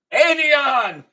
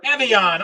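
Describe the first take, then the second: First: Evian as AY-vee-ahn, called out high and loud; first syllable as AY. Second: Evian as EH-vee-ahn, short E; first syllable as EH. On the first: Host unsure how to say the brand, Evian as AY-vee-ahn. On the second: Host offering another way to say the brand, Evian as EH-vee-ahn. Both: Shown as a demonstration. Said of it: "I'm not sure how to say that".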